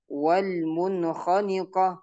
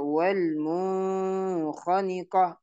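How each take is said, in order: First: Slow recitation, short N in "munkhaniqah"; no hum inside "munkhaniqah"; correct clear nun. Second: Long hum on "mun" in "munkhaniqah"; wrong held nun. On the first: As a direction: go straight from N to kh in "munkhaniqah". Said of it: "maka dibaca jelas ya". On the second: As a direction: stretch the first N of "munkhaniqah". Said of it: "Ini salah ya". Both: Shown as a demonstration.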